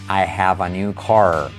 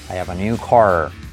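First: It is said slowly and carefully. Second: It is said fast and connected.

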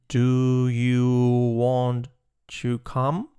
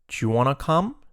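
First: It is said slowly and fully. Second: It is said fast and reduced.

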